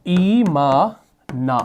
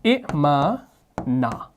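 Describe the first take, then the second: First: ईमाना with the ई stretched very slowly; long i demo. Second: इमाना with a short इ, drawn out slowly and softly; original short form. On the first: Teacher showing the Quran's long vowel, very slow. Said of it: "दूसरी मिसाल". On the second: Teacher revealing the original word, softly. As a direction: keep the इ of इमाना short, the rest slow. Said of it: "ये था". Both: Shown as a demonstration.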